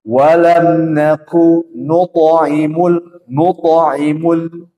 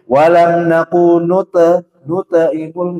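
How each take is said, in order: First: Slow chant with "nuto" on a round o; correct reading. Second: Slow chant with "nute" on a flat e; wrong reading. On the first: Teacher chanting the correct version after the wrong one, slowly. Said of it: "tapi nuto". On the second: Teacher demonstrating the mistake students make, slow chant. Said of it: "ini salah". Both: Shown as a demonstration.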